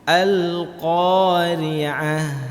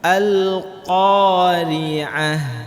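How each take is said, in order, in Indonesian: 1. Qaf diucapkan dengan mulut cukup terbuka. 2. Qaf diucapkan dengan mulut cukup terbuka.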